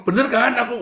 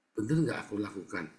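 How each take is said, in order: First: High, loud insistent question; seeking self-justification. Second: Said in the usual way. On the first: Shown as a demonstration. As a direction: demand agreement, pitched way up. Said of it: "kamu sedang mencari pembenaran". (menuntut dibenarkan) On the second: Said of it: "Tahu nggak bedanya?".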